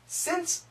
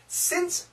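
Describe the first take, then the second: No difference in how they are said.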